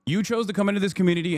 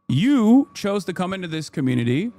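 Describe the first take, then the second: First: Said in the usual way. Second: Confrontational, leaning heavily on You; stress on YOU. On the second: Real, not acted. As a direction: hit the word You hard, then ease off. Emphatic confrontation of chatter.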